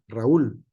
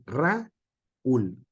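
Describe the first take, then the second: First: Raúl said quickly as one joined unit; run together. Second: Raúl drawn out slowly as Ra... úl; split into syllables. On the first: Teacher shows the class what not to do, Raúl all joined. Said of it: "por sílabas toda junta". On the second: Teacher shows students the hiatus, Raúl slowly split in two. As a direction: break Raúl in two with a clear gap before úl. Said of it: "no se puede pronunciar". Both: Shown as a demonstration.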